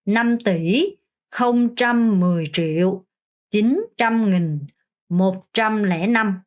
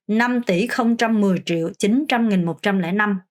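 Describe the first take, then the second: First: Very slow, chunk by chunk; teacher's slow chunked count; slow demo reading. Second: Whole number in one smoother run; fluent teacher's reading; faster reading. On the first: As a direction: lay out each chunk slowly. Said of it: "다시 한번 해보겠습니다". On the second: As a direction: pick up the pace for one full pass. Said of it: "좀 더 빨리 읽을 수 있도록". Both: Shown as a demonstration.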